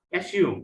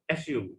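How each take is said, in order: First: অ্যাসিউম said clearly as "a-SIUM"; teacher modelling অ্যাসিউম for the class; অ্যাসিউম modelled up and clear; model pronunciation. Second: Said in the usual way. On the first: Shown as a demonstration. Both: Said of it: "try to pronounce the words correctly".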